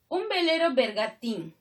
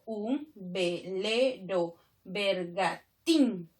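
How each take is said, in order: First: Said in the usual way. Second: Very slow, every syllable set apart; teacher's slow scansion, counting out each syllable. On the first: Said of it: "Aquí tengo tres versos". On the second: Shown as a demonstration. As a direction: split the verse into syllables with gaps. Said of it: "Si yo separo nada más".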